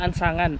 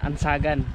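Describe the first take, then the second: First: The middle syllable has an added 'ng' sound. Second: The middle syllable has no added 'ng' sound. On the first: The speaker calls it wrong. "Hindi pala Ansangan" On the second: The speaker calls it right. "Lagi tayong mali"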